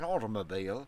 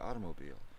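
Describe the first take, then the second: First: The word is said with a British accent. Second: The word is said with an American accent. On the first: "In England, it would be an automobile" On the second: "is supposed to be automobile"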